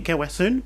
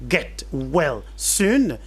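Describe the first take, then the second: First: Final consonants are dropped and words run together. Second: Every word keeps its final consonant. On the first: "qui va se prononcer Gawasun" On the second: "en anglais get well soon"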